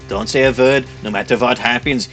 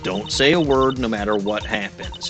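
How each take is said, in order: First: It is said with an imitated German accent. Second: It is said without a German accent.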